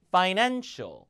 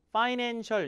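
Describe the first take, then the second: First: One syllable is clearly stressed. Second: All syllables are said flat, without stress. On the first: The speaker calls it right. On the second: The speaker calls it wrong.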